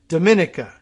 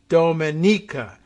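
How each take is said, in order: First: The name is said in an anglicized way. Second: The name is said in its native way. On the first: This is how an English reader would read the name. The speaker calls it wrong. "That's the anglicized version of how you would read it" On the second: This is the name's actual pronunciation. The speaker calls it right. "but it's uh, Dominica"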